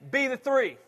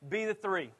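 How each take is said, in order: First: The phrase is said at a louder volume. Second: The phrase is said at a quieter volume.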